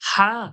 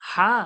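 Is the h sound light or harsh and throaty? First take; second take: throaty; throaty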